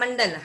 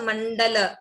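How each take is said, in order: First: The final vowel is dropped, ending on a consonant. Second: The final vowel is clearly sounded at the end. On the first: This is how it is said in everyday talk. The speaker calls it wrong. "हम मंडल half ही बोलते हैं" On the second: This is how it is recited in a verse. The speaker calls it right. "संपूर्ण मंडल"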